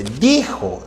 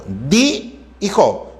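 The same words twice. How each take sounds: First: Said in the usual way. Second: DI, pause, JO; syllable by syllable. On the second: Shown as a demonstration. Teacher checking dijo for vowel sequences, syllable by syllable. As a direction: split dijo into DI and JO. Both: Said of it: "No hay secuencia de vocales".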